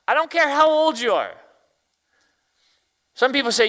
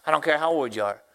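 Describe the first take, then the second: First: Higher, louder preacher's cry; loud, high exhortation; preaching. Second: Said in the usual way. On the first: Real, not acted. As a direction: drive it home to the congregation.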